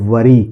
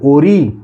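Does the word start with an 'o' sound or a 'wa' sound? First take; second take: wa sound; o sound. First: The word starts with a 'wa' sound. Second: The word starts with an 'o' sound. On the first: The speaker calls it right. "ये है वरी" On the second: The speaker calls it wrong. "ओरी नहीं"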